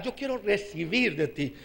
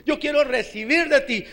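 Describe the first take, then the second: First: Low, soft prayerful plea; subdued plea. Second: Said in the usual way. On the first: Retold or imitated. Preacher retelling his own prayer to the Lord, subdued plea. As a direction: say it softly, as if privately to God.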